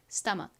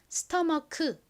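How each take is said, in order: First: The final k is clipped short without a vowel. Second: The final k is released with an extra vowel. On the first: The speaker calls it right. "기억 받침처럼 소리가 난다" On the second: The speaker calls it wrong. "스토머크 이렇게 발음되는 것이 아니라"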